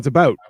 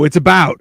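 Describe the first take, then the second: First: About is said with a Canadian accent. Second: About is said with an Oklahoma accent.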